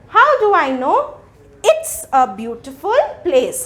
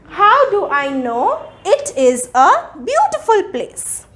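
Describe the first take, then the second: First: 'It is' is contracted to one syllable. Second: 'It is' is said as two full words. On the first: "we contract the given word, the pronunciation also changes" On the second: "I am reading the question"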